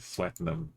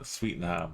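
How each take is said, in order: First: The first syllable sounds like 'sweat'. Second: The first syllable sounds like 'sweet'. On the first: "I think it's sweat, really" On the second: "Sweetenham sounds better"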